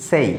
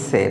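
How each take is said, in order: First: সেই said with a full ei glide; correct diphthong. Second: সে said short and flat without a glide; wrong short vowel. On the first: Teacher modelling the right সেই. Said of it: "but it will be". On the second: Teacher showing the common wrong সে. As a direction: clip সে, no ei. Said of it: "এই শব্দটার উচ্চারণও ভুল করে থাকি". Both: Shown as a demonstration.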